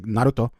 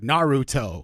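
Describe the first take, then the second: First: The name has a Japanese-style pronunciation. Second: The name has an English-style pronunciation. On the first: "I'm not gonna uh, like say it exactly like how they say it in, in the Japanese dubs, but it's like Naruto" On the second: "like you would hear it in the dubs, it's like Naruto"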